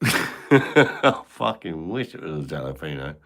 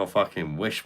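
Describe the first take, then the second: First: Slower, laughing through the words; giggling at his own joke. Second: Said in the usual way. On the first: Real, not acted. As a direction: let the laugh spill into the line. Repeats the line laughing.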